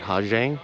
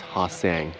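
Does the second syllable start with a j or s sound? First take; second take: j; s. First: The second syllable starts with a j sound. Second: The second syllable starts with an s sound. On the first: The speaker calls it wrong. "I realized it's not Hajiang" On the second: The speaker calls it right. "it's Ha Sang"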